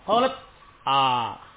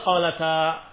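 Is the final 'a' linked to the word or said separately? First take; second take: separate; linked. First: The final vowel is said apart after a break. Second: The final vowel is joined smoothly to the word. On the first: The speaker calls it wrong. "Begitu bacanya. Ya enggak mungkin" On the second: The speaker calls it right. "Tentu dibacanya qalata"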